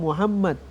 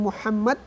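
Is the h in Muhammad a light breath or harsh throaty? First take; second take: light breath; harsh throaty. First: The h is a light breathy sound. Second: The h is a harsh sound from mid-throat. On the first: The speaker calls it wrong. "Sebagian orang mengatakan Muhammad dengan Muhammad" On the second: The speaker calls it right. "Kalau H itu di tengah tenggorokan"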